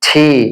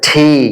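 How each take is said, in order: Both takes have the same delivery.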